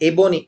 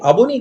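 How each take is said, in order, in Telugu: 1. మొదటి అచ్చు 'eh' ధ్వని. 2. మొదటి అచ్చు తెరిచిన 'ah' ధ్వని. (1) "ఏ అంటే ఆంగ్లేయం" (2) "అబోనీ కాదు"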